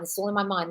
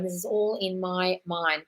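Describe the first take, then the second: First: Said in the usual way. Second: "all in my mind" drawn out slowly; slow right down and let each word land; slow affirmation. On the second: Shown as a demonstration. Coaching viewers through an affirmation, slowly and deliberately. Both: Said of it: "Just say".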